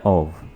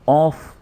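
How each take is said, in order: First: The word ends with a v sound. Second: The word ends with an f sound. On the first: The speaker calls it right. "वाव के साथ है" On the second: The speaker calls it wrong. "ऐसे नहीं पढ़ेंगे, ये इसको पढ़ना गलत है"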